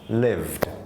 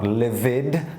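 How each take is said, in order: First: The word ends in a plain d sound. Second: The word ends with an extra id syllable. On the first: The speaker calls it right. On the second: The speaker calls it wrong. "not livid"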